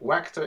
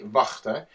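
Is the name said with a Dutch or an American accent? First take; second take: American; Dutch. First: The name is said with an American accent. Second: The name is said with a Dutch accent.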